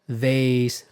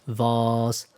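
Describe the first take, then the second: First: It is said in an American accent. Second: It is said in a British accent.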